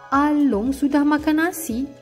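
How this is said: It is said with surprise. The speaker is shocked that the meal was eaten. "seperti terke- terkejut"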